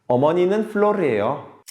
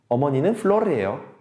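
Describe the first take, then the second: Both takes have the same delivery.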